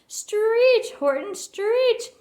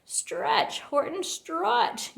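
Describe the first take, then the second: First: Much higher, louder, slow yell. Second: High half-voiced call, slow on Horton; a first, lighter command; mild yell. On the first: Quuggerbug urging Horton again, a high loud slow yell. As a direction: push harder, full shout. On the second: Quuggerbug urging Horton across the gap, a mild high call. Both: A narrator's reading. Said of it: "yelled the bug".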